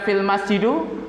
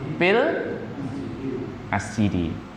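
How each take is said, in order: First: The last word ends with a u sound. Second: The last word ends with an i sound. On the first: The speaker calls it wrong. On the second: The speaker calls it right.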